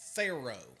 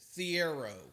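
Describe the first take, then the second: First: The surname is said with two syllables. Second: The surname is said with three syllables. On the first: This is the newer way of saying the name. "Now that he's at Arkansas, it's Thero" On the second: This is the older way of saying the name. "Every game he played as a Wildcat, it was Adu Thiero"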